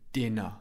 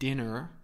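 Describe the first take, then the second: First: The final R sound is silent. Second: The final R sound is pronounced. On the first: The speaker calls it right. "I don't pronounce the R in British English. My mouth is open at the end" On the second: The speaker calls it wrong. "I don't say dinner"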